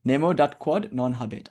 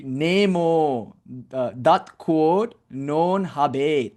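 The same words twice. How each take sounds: First: Said in the usual way. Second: "Nemo, uh, dat quod non habet" with long O and E, slow; Sanskrit-style Latin. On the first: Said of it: "I don't know if I'm saying that correctly". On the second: Shown as a demonstration. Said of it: "because O and E is long".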